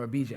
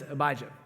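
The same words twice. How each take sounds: First: "Abijah" said the other possible way; alternative pronunciation. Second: Said in the usual way. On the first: Shown as a demonstration. Preacher offering another reading of a priestly division's name, "Abijah" pronounced differently. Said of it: "however you wanna say it". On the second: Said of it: "or Abijah, however you wanna say it".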